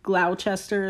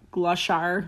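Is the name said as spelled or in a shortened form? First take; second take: as spelled; shortened. First: Every letter of the spelling is sounded out. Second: Some letters of the spelling are left unsounded. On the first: The speaker calls it wrong. "it's not Gloucester" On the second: The speaker calls it right. "it's like Gloucester"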